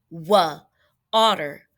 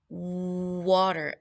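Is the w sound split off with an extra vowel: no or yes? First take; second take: yes; no. First: A separate wa sound comes before the word. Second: The w sound blends straight into the word. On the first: The speaker calls it wrong. "we don't say wa, otter" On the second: The speaker calls it right. "We say water"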